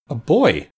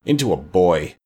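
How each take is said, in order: First: High-pitched questioning echo; raised, startled question; astonished echo. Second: Low, grudging confession; witch's dark, low admission. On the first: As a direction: repeat it in disbelief. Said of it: "echoed every voice". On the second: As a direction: admit it in a lowered voice. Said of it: "said Mombi in a low tone". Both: A narrator's reading.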